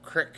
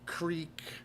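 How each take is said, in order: First: It is said with a short vowel, like crick. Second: It is said with a long vowel, like creek.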